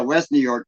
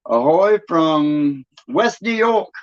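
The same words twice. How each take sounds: First: Said in the usual way. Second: Slow, drawn-out put-on New York accent; mock New York accent, vowels held long. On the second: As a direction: hail them in a stretched New York accent. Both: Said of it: "they don't have that accent up there".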